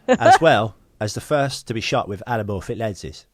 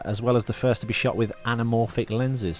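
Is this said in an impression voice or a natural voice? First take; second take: impression; natural. First: It is said in a put-on celebrity impression voice. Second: It is said in the speaker's ordinary voice.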